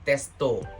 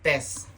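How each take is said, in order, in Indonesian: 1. Kata ini berakhir dengan bunyi vokal tambahan. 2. Kata ini berakhir dengan bunyi konsonan. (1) "pasti testo" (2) "bahasa Inggris misalnya"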